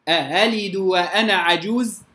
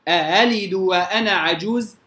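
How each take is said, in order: The two takes are said the same way.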